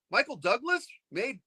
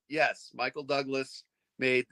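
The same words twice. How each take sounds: First: Higher, rising disbelieving question; incredulous question. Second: Said in the usual way. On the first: Retold or imitated. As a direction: ask it like you can't believe it. Fan asks in disbelief.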